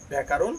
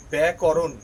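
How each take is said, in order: First: ব্যাকরণ said byæ-kaa-ron, ending on a rise; wrong pronunciation. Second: ব্যাকরণ said byæ-ko-ron, with short 'ko'; correct pronunciation. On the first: Teacher showing what not to say, mispronounced with 'kaa'. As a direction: say ব্যাকরণ with a long 'a' after k. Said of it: "নয়". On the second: Teacher giving the right pronunciation, correct and firm. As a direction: say ব্যাকরণ with no long 'a' after k. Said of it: "এর সঠিক উচ্চারণ". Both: Shown as a demonstration.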